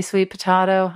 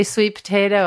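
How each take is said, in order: First: "potato" with an "ah" in the middle; broad-A pronunciation. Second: "potato" with a long "ay" in the middle; usual pronunciation. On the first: Co-host adopting her friend's version, "potato" with "ah". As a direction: say "potato" as puh-TAH-toh. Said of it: "I say sweet potato". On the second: Co-host showing how others say it, "potato" with "ay". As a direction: say "potato" as puh-TAY-toh. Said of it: "You say sweet potato". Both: Shown as a demonstration.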